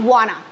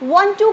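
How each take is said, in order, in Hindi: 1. दोनों शब्द मिलकर एक छोटा, रिड्यूस्ड शब्द बन जाते हैं। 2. दोनों शब्द पूरी तरह और अलग-अलग बोले जाते हैं।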